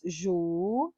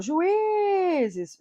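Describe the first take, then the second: First: "juízes" split into ju, í, zes; syllable by syllable. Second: "juízes" with a long, high í; stressed vowel stretched. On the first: Teacher dividing the plural for class, "juízes" syllable by syllable. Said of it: "vamos separar?". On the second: Teacher showing the plural's tonic I, long high í in "juízes". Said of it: "o I é tônico". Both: Shown as a demonstration.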